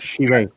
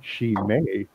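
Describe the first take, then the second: First: The word does not begin with 'shee'. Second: The word begins with 'shee', then 'may'. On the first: The speaker calls it wrong. "Not Chimay" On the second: The speaker calls it right. "like S-H-E and then M-A-Y"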